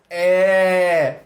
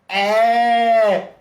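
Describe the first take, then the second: First: The vowel sounds bright, said with a smile. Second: The same.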